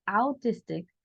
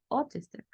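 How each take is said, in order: First: "autistic" said with an "au" diphthong; "autistic" read as "au-tistic"; wrong spelling-based reading. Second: "autistic" with au said as "o"; correct pronunciation. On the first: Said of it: "En lugar de decir autistic". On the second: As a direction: say "autistic" as "o-tistic". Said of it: "yo voy a decir autistic". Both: Shown as a demonstration.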